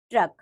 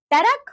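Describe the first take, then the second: First: Said in the usual way. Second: "टरक" high, as two syllables "ta-rak"; wrong pronunciation. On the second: Shown as a demonstration. Teacher showing pupils the r error, "टरक" mispronounced as "tarak". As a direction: break the tr cluster, "टरक". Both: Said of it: "र संबंधी अशुद्धियां".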